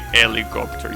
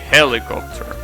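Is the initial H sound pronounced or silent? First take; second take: silent; pronounced. First: The initial H sound is silent. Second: The initial H sound is pronounced. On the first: The speaker calls it wrong. "you don't say helicopter" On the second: The speaker calls it right. "you say helicopter"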